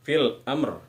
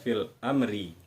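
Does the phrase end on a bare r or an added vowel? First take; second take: bare r; added vowel. First: It ends on a short, clipped r sound. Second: It ends with an added i vowel. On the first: The speaker calls it right. "huruf ra bunyinya kita ambil atau kita baca setengah saja" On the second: The speaker calls it wrong. "Tidak kita baca fil amri"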